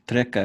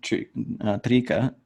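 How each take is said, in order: First: The first vowel is said short. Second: The first vowel is said long. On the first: "I guess it's trika because it's a short e" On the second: "But I always say trika"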